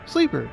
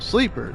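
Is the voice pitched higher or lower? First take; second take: higher; lower. First: It is said in a higher, feminine voice. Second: It is said in a lower, natural voice. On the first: "if I'm doing a more feminine voice, ... go up like an octave" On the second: "instead of going"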